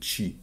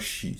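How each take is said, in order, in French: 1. Il commence par un 'tch' sec. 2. Il commence par un 'sh' doux. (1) "c'est T-C-H-I, quoi. C'est chi" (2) "C'est pas chi"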